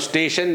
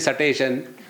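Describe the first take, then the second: First: It starts with the s-t cluster together. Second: A vowel is inserted between s and t. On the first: The speaker calls it right. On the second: The speaker calls it wrong.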